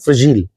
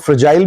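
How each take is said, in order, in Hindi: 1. आखिरी अक्षर में छोटा, हल्का स्वर है। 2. आखिरी अक्षर में लंबा 'eye' स्वर है।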